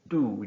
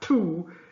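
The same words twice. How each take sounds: First: The T is soft, with no puff of air. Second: The T is strong, with a puff of air. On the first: The speaker calls it right. "it's tú. You're not going to spit" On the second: The speaker calls it wrong. "the T in Spanish is not as strong as the T in English. So it's not tú"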